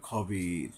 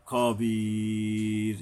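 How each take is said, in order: First: খবির with a short kho, not খাবির; খবির clipped, low and soft. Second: খবির with the vowel drawn out long before the stop; three-alif stop. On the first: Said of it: "খাবির নয়". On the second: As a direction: stretch খবির for three counts, then stop. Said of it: "তিন আলিফ পরিমাণ টাইনা থামতে হবে". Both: Shown as a demonstration.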